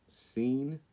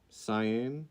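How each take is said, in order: First: Seine said like "seen"; questioning Seine, rhymed with bean; uncertain pronunciation. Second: Seine said like "sigh-ANN"; questioning stab at Seine, sigh-ann; uncertain pronunciation. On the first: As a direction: try Seine as one long "ee", seen. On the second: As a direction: try Seine as two vowels, sigh-ann. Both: Shown as a demonstration. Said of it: "I think it's Seine River".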